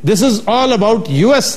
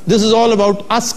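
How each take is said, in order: First: The last word is spelled out as two letters. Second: The last word is said as one short word. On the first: It refers to the United States. The speaker calls it right. "लिखा होता था" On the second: It refers to ourselves. The speaker calls it wrong. "कहते रहे"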